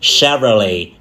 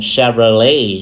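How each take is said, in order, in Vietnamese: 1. Trọng âm nằm ở âm tiết đầu. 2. Trọng âm nằm ở âm tiết cuối. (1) "Một là nhấn âm tiết đầu tiên" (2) "Hai là nhấn âm tiết cuối cùng"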